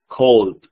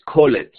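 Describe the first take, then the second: First: "called" said as one syllable, like "kold"; correct pronunciation. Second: "called" said with a full extra syllable, like "col-et"; wrong pronunciation. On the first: Teacher gives students the right one-syllable form. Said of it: "sino called". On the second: Teacher shows students the wrong way, an extra syllable. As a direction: stretch "called" into two syllables, ending in a "t". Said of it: "no es called". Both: Shown as a demonstration.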